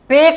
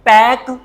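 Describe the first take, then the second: First: The vowel is closer, like in 'bed'. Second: The vowel is open, like in 'cat'. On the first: The speaker calls it wrong. "पेक नहीं" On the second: The speaker calls it right.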